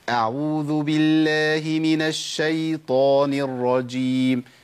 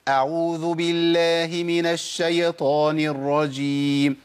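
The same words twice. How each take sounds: First: The ya in the Shaytan word stays silent. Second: The ya in the Shaytan word gets a vowel. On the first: The speaker calls it right. "أمال أقولها إزاي؟" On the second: The speaker calls it wrong. "ده خطأ"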